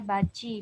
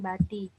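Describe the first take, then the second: First: The middle consonant sounds like ch. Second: The middle consonant sounds like t. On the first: The speaker calls it right. "ada baci" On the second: The speaker calls it wrong. "bukan bati"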